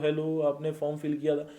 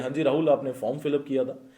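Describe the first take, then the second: First: It is said in a limp, low-energy way. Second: It is said in a confident, commanding tone.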